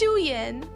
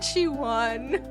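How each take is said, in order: First: The name is said as Shuyan. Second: The name is said as Shiwan. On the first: The speaker calls it right. "It's Shuyan" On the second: The speaker calls it wrong. "It's not Shiwan"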